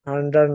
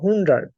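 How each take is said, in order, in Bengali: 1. প্রথম স্বরধ্বনিটি একটি খোলা 'a' ধ্বনি। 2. প্রথম স্বরধ্বনিটি একটি গোলাকার 'u' ধ্বনি। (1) "হান্ড্রেড না"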